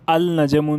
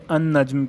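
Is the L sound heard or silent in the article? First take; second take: heard; silent. First: The L of the article is pronounced. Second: The L merges into a doubled N. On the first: The speaker calls it wrong. "आप अल नजमुन इसे कभी नहीं कहेंगे" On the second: The speaker calls it right. "अन नज्म कहेंगे"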